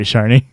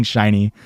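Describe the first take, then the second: First: Sharny said with an ar vowel, shar-nee; Midwest slur. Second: Said in the usual way. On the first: Retold or imitated. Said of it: "Did my Midwest accent slur it?". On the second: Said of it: "I was saying shiny".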